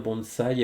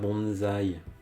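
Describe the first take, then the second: First: It is pronounced the Japanese way. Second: It is pronounced the French way. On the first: The speaker calls it right. "je dis bien bonsaï" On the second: The speaker calls it wrong. "pas bonsaï. Ne le prononcez pas à la française"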